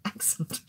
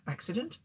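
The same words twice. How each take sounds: First: "Accent." breathed out through a laugh; "Accent." laughed almost voicelessly; laughing correction. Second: "Accident?" said where "accent" was meant, with a rise; "Accident?" as a puzzled self-correction; slip of the tongue. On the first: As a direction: correct yourself to "Accent." while giggling. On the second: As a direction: misread "Accident?" then catch it. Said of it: "Whoops, I don't think that was a Freudian slip". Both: Shown as a demonstration.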